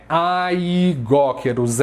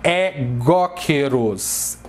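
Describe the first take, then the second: First: Aigóqueros begun with a stretched "ai"; slow "ai-GÓ-queros" for aigóqueros; wrong pronunciation. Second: Egóqueros with "ai" read as one open E; slow, spelled-out É-GÓ-queros for egóqueros; correct pronunciation. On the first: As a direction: sound A and I before góqueros. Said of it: "não é aigóqueros". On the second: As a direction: start egóqueros on a single open E sound. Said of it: "eles têm som de E". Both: Shown as a demonstration.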